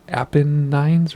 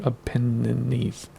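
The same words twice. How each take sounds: First: "Apennines" as APP-uh-nines; Apennines ending in "nines". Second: "Apennines" drawn out as uh-PEN-uh-neez; Apennines ending in "neez". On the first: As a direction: end "Apennines" on a long-I "nines". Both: Shown as a demonstration. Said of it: "Is it Apennines or Apennines?".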